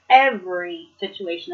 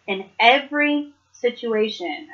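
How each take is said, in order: First: "Every" hit firmly at the start, "situation" falling away; stress on every. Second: Said in the usual way. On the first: Shown as a demonstration. Driving home a Bible note to viewers, "Every" stressed. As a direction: lean hard on "Every", then let the phrase drop. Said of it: "put the emphasis on that". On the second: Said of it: "I want to emphasis".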